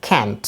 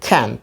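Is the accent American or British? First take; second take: American; American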